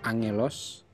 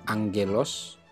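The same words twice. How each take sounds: First: The first gamma is said as an n sound. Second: The first gamma is said as a g sound. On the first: The speaker calls it right. "Jadi dibaca angelos" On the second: The speaker calls it wrong. "bukan angelos"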